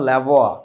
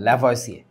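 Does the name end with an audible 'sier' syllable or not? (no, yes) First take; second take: no; yes. First: The name ends on a 'wa' sound. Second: The name ends with a spoken 'sier' syllable. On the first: This is the name's actual French pronunciation. The speaker calls it right. "ওনার নামের actual উচ্চারণটা হচ্ছে" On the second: This is how the name is written in Bengali. The speaker calls it wrong. "যদিও নামের উচ্চারণটা এরকম না, but আমরা বাংলায় লিখি এইভাবে"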